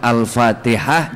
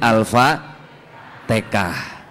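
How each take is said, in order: First: The middle consonant is pronounced as an h sound. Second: The middle consonant is pronounced as a k sound.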